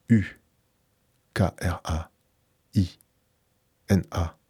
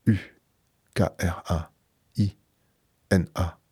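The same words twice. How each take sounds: The two takes are said the same way.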